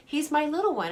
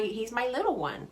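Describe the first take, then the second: First: Higher, fondly laughing through it; amused, affectionate chuckle. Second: Said in the usual way. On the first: Real, not acted. Laughing about her tall son.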